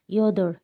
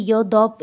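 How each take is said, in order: First: Said in the usual way. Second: ইয়দপ ending in an extra "p" sound, "yo-dop"; wrong final consonant. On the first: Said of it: "শুধু এটা উচ্চারণ করছি". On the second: Shown as a demonstration. Teacher warning learners about a silent letter, mispronounced ইয়দপ. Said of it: "এইভাবে উচ্চারণ করা যাবে না".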